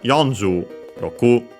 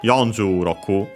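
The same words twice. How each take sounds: First: Both words are said separately with their own accents. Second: Only the first word is accented; 'roku' stays low. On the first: "separate them ... pronounce the two uh, with the two accents" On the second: "keeps only the accent of uh, the um, uh, twenty, forty ... Roku then stays uh, completely low"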